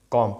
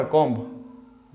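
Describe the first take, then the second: First: कॉम ending on m, no b sound; silent b. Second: कॉम्ब with the final b sounded; b pronounced. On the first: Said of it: "बी है वो silent होता है". (कॉम, आख़िर का ब silent) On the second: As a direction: wrongly voice the b closing कॉम्ब. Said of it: "नहीं बबुआ". (कॉम्ब, आख़िर में ब बोलकर) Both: Shown as a demonstration.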